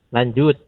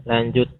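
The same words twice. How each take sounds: Both takes have the same delivery.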